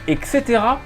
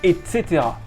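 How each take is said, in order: First: The first word ends in a k sound. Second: The first word ends in a t sound. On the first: "E K" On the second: "E T"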